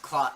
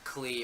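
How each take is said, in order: First: The syllable rhymes with 'sky'. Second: The syllable rhymes with 'see'. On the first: The speaker calls it right. "It's Cly" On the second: The speaker calls it wrong. "not Clee"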